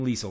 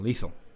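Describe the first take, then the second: First: The middle consonant sounds like a z. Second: The middle consonant is a th sound. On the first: The speaker calls it wrong. "I'm not saying lethal" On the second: The speaker calls it right. "I'm saying lethal. Get it right"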